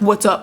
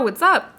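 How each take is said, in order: First: It is said in a deep voice. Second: It is said in an ordinary voice.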